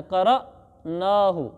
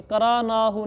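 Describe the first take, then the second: First: क़रअनाहु with a sharp stop after क़र, very slow; correct pronunciation. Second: करानाहु with a long open रा and no catch; wrong pronunciation. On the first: Teacher demonstrating the right reading to students, jolted क़रअनाहु. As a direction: give क़रअनाहु a jolt on the अ, drawn out. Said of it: "इसको झटका देना है". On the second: Teacher showing students the mistaken reading, smooth करानाहु. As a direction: say करानाहु smoothly, skipping the stop on अलिफ. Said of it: "अलिफ को कराना नहीं पढ़ना". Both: Shown as a demonstration.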